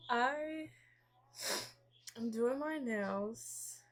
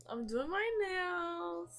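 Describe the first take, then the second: First: Slow repeat, "my" drawn out on a rising tune. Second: High, slow sing-song with a lift on "my"; sing-song announcement. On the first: To viewers again while painting her nails, a slower rising repeat. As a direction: ease through "am doing my nails", letting "my" lift and hang. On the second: To viewers while painting her nails, a high sing-song announcement. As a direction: announce "I'm doing my nails" brightly, stretching "my" up high. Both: Real, not acted.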